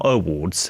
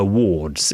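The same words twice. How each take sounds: First: Awards with the a sound in front, uh-WARDS; awards, the wrong word. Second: Wards slowly, no a in front, WARDS; wards, the right word. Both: Shown as a demonstration. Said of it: "No, not awards".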